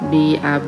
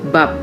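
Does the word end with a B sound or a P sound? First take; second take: B sound; P sound. First: The word ends with a B sound. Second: The word ends with a P sound. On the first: The speaker calls it wrong. "bukan bab" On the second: The speaker calls it right. "Tapi bab gitu ya. Oh, akhirannya itu p"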